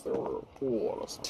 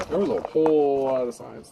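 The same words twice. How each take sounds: First: Whispered repeat, breathy and hushed. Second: Said in the usual way. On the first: Acted. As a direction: say it again under your breath.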